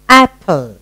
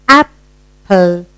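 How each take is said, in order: First: Said in the usual way. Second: "Apple" as two beats with a pause between; split into syllables. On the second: Shown as a demonstration. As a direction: pause halfway through "Apple". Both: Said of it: "two syllable".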